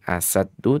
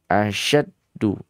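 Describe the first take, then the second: First: The middle consonant is a plain s sound. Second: The middle consonant is an sh sound. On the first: The speaker calls it wrong. "Bukan asaddu" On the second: The speaker calls it right. "tapi asyaddu"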